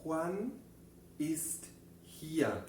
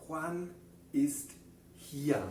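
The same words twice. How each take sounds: First: Juan ist hier separado palabra por palabra; repetición en coro. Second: Juan ist hier dicho despacio, con hier caído; modelo en alemán. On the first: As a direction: dilo lento para que lo repitan juntos. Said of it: "Vamos a pronunciar eso juntos otra vez". (repaso en voz alta con la clase) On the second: (frase modelo en alemán) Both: Shown as a demonstration.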